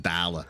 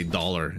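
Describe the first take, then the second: First: "dollar" as dah-luh, r dropped; imitating New Yorkers saying "dollar"; New York pronunciation. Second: Said in the usual way. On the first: Shown as a demonstration. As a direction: say "dollar" with a wide ah and no final r. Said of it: "instead of dollar". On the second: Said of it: "'cause I say dollar".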